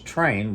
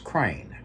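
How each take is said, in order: First: The word begins with a T sound. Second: The word begins with a K sound. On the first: "there's train" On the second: "C's for T's"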